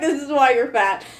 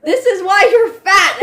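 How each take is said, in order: First: Said in the usual way. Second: Mock shout. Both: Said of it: "when she's like".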